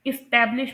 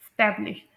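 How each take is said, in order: First: एस्टैब्लिश with its opening vowel, "is-TAB-lish"; corrected pronunciation. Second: एस्टैब्लिश without its opening vowel, "stablish"; common mispronunciation. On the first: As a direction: sound the short first "i" before "stab" in एस्टैब्लिश. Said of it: "यहाँ पर ई की sound आएगी". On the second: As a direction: drop the first syllable of एस्टैब्लिश. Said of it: "इसे लोग pronounce करते हैं". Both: Shown as a demonstration.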